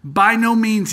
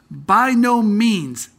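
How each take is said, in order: First: High, loud By no means with a falling no; emphatic near-shout. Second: Slow, high and loud By no means!; emphatic exclamation. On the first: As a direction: hit the no hard, as if almost shouting. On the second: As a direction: stretch out the no big and loud. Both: Shown as a demonstration. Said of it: "I'd shout it at you".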